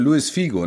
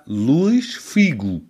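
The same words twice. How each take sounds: First: The name is said with a common German pronunciation. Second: The name is said with the original Portuguese pronunciation. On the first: This is how most people say it. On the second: This is the name's real pronunciation.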